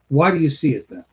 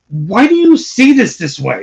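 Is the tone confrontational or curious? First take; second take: curious; confrontational. First: It sounds open and curious. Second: It sounds forceful and confrontational.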